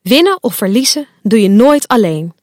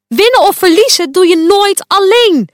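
First: Calm, level retelling of the lesson; gentle reminder. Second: Loud, higher stern lecture, WINNEN hit hard; boze les. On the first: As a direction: kindly repeat the lesson to Fuchsia. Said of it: "Ik zei het al eerder". (rustig en vriendelijk, winnen licht benadrukt) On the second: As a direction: hammer the lesson home angrily. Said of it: "roept Quark". (luid en streng, nadruk op winnen) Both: A narrator's reading.

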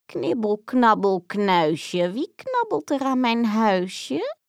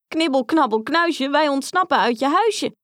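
First: Slow, creaky witch chant from inside; a lurking old witch sing-songs her rhyme; strange witch voice. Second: Higher, louder mocking chant; taunting call. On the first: Acted. Witch calls out to the nibbling children in a strange voice. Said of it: "klonk er een vreemde stem". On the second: Grietje taunts the witch with her own rhyme, loud and mocking. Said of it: "riep Grietje".

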